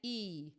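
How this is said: The vowel starts with a sharp catch. The speaker calls it right. "that little pop at the beginning of each of those vowels is what we call a glottal onset"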